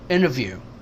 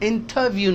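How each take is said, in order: First: The t after n is dropped into n. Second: The t after n is clearly pronounced. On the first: The speaker calls it right. "ये टी भी एन हो गया इस एन की वजह से" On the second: The speaker calls it wrong. "इंटरव्यू नहीं है"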